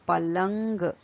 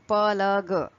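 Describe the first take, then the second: First: The word ends with a nasal 'ng' sound. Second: The word ends with a plain 'g' sound. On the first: The speaker calls it right. "You have to add that dot to the consonant and the word will be palang" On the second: The speaker calls it wrong. "you cannot read this word like palag. Palag will be wrong"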